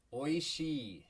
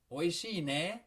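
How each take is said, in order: First: Said in the usual way. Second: Oishii ne with pitch rising at the end; rising tune on ne. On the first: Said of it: "add one easy little sound". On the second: Shown as a demonstration. Teacher shows the rising end on Oishii ne, seeking agreement. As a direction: lift the end of Oishii ne like a question. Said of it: "how I rose my intonation".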